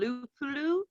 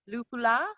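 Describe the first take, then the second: First: The name is said as Lupulu, ending in -lu. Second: The name is said as Lupula, ending in -la.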